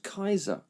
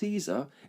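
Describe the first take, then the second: First: The name begins with a hard k sound. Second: The name begins with a soft s sound. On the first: The speaker calls it right. "it's pronounced Kaiser" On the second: The speaker calls it wrong. "Caesar is not pronounced Caesar"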